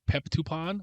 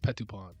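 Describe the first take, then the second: First: An extra p sound comes before the t. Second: No extra p sound comes before the t. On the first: The speaker calls it wrong. "I think I kept saying Peptupon" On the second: The speaker calls it right. "but it's Petupon"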